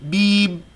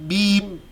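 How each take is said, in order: The two takes are said the same way.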